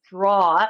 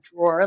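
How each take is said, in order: First: It is said with a thick New York accent. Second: It is said with a standard non-New York accent.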